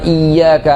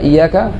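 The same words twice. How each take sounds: First: The y sound is held and doubled. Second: The y sound is short and single. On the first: The speaker calls it right. "tasdid misalnya iyyaka na'budu" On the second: The speaker calls it wrong. "Kalau dibaca iyyaka, alas hilangkan satu huruf"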